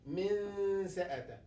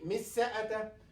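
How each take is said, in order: First: The n is half-hidden with a nasal sound. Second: The n is merged into the following s. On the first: The speaker calls it right. "We will pronounce noon but halfway" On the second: The speaker calls it wrong. "We'll not say مس سأته"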